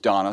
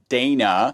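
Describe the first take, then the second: First: The first vowel sounds like the vowel in 'dog'. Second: The first vowel sounds like the vowel in 'day'. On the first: This is how the name's owner says it. The speaker calls it right. "it's pronounced Donna" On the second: This is how Americans would usually say it. The speaker calls it wrong. "us Americans would pronounce it Dana"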